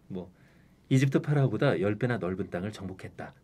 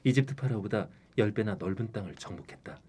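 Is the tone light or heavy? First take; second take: light; heavy. First: It is said in a light, relaxed tone. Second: It is said in a heavy, serious tone.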